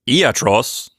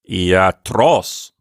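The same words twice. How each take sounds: First: The stress falls before the last syllable. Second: The stress falls on the last syllable. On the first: The speaker calls it wrong. "or iatros" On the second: The speaker calls it right. "with the accent on the last syllable"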